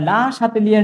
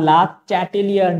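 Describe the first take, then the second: First: The name starts with an 'sh' sound. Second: The name starts with a 'ch' sound. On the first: "লা শাতেলিয়ার নীতি বলো তাও তোমাদের জন্য ঠিক আছে" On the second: "লা চ্যাটেলিয়ার নীতি বলো তাও ঠিক আছে"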